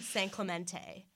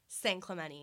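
First: The t after the n is clearly pronounced. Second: The t after the n is dropped. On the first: The speaker is not a local. The speaker calls it wrong. "not San Clemente" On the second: The speaker is a local. The speaker calls it right. "as I just said"

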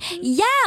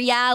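First: It is said in an excited, enthusiastic tone. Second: It is said in a flat, dismissive tone. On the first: The speaker is genuinely happy about it. "like I'm excited about it" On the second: The speaker just wants the other person to stop talking. "like whatever to shut you up"

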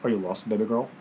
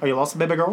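First: It is said in a deeper voice. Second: It is said in his normal voice.

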